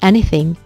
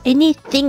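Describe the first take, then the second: First: The th sound is light and brief. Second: The th sound is strongly exaggerated. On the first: The speaker calls it right. "살짝 물어주면서" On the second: The speaker calls it wrong. "너무 이렇게 오버해서"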